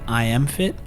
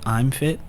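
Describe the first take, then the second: First: The words I and am are said separately. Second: The words I and am are contracted together.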